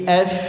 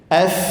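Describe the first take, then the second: No difference in how they are said.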